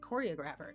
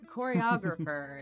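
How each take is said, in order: First: The stress falls on an unusual syllable. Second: The stress falls on the usual syllable. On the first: The speaker calls it wrong. "I almost said choreographer" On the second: The speaker calls it right. "Choreographer is how you say that word"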